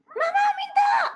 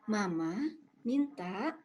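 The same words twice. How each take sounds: First: It is shouted loudly like a demanding child. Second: It is said in a calm, flat tone.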